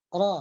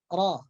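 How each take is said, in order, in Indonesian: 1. Huruf r hanya bergetar ringan dan samar. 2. Huruf r hanya bergetar ringan dan samar.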